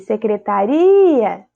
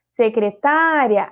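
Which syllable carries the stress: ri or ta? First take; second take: ri; ta. First: The stress falls on the syllable ri. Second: The stress falls on the syllable ta. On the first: "secretaria, sílaba tônica" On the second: "Secretária, aí eu vou acentuar a paroxítona"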